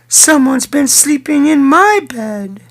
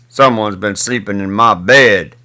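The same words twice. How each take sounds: First: It is said in a medium-sized voice. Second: It is said in a big, deep voice. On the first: "she said in her mid-sized voice" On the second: "he said in his great big voice"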